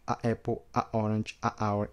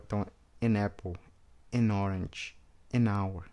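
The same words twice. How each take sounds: First: Each "a" cut off before the next word; choppy demo. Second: "an" flowing into each word; smooth, no break; linked demo. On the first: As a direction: break after each a. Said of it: "Você vê se tem esse corte". (cada "a" com corte antes da palavra) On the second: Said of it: "a pronúncia fica bem fluida". ("an" emendando em cada palavra) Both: Shown as a demonstration.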